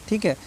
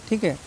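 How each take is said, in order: The two takes are said the same way.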